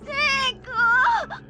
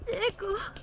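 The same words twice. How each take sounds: First: The name is said firmly and demandingly. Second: The name is said softly, hushed.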